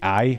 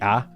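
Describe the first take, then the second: First: The vowel glides, sounding like 'eye'. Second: The vowel is a flat, single 'ah'. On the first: "I don't say I a lot" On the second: "I say ah"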